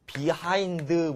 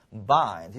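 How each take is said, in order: First: Behind with a clearly sounded H, "bi-haind"; common reading. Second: Behind squeezed to "baind", H dropped; reduced native reading. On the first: Teacher shows how learners usually read it, behind with a full H. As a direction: say behind in two full syllables with the H. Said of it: "보통 이렇게 있는데". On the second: Teacher corrects the usual reading, behind reduced to "baind". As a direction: say behind as nearly one syllable, "baind". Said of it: "behind가 아니라 behind 이렇게 읽어요". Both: Shown as a demonstration.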